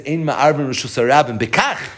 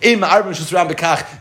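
First: The final word bekach is strongly emphasized. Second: The final word bekach is not specially emphasized. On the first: Merging that domain is not allowed in this simple way. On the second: Merging that domain is not allowed at all.

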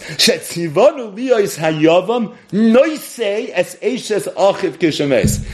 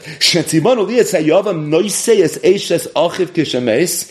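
First: It is read slowly. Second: It is read fast.

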